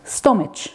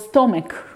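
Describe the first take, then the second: First: The word is sounded out as spelled. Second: The word is said the usual way. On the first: The speaker calls it wrong. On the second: The speaker calls it right.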